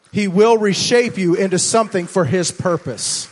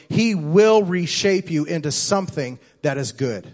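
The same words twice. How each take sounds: First: Louder and higher, driving the line home; the second time, swell up and proclaim it; building preacher emphasis. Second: Said in the usual way. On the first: Shown as a demonstration. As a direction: preach it with rising force.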